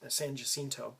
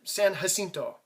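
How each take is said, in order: First: The name is said with an English pronunciation. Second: The name is said with a Spanish pronunciation. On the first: "the people who created the town and uh, settled to the river um, called it San Jacinto" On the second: "according to the, the Mexican pronunciation"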